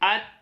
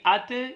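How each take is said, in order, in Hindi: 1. अंतिम व्यंजन बिना किसी उछाल के साफ़ खत्म होता है। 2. अंतिम व्यंजन गूँज वाली उछाल के साथ खत्म होता है। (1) "इन पर हमने कलकला अदा नहीं करना" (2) "इस तरह पढ़ना बिल्कुल गलत हो जाएगा"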